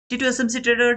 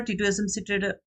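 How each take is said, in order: First: Excited call. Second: Said in the usual way. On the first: Real, not acted. Calling out the hoped-for winner.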